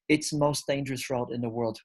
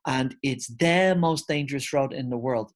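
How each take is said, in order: First: Said in the usual way. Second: "the" in "it's the most dangerous road" stressed as the correct form. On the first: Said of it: "It's not". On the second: Shown as a demonstration. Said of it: "We need to put the".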